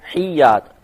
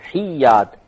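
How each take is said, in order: No difference in how they are said.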